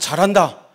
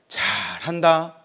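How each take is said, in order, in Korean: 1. 진심으로 감탄하는 말투로 말합니다. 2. 놀리고 비꼬는 말투로 말합니다. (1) "하면 칭찬인데" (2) "하면 비난이잖아요"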